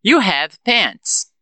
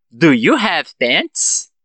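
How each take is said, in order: First: Very slow, "pants" falling; affirmative statement. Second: Very slow, "pants" rising; question intonation. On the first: Teacher prompts students to transform it, slow falling statement. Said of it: "Eu falo a frase na afirmativa". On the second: Teacher gives the answer after practice, slow rising question. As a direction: ask slowly, lifting up on "pants". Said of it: "com a entonação de pergunta". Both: Shown as a demonstration.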